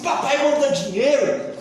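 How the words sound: It is said as a rude, bossy command. The son is being insolent in demanding money. The speaker calls it wrong.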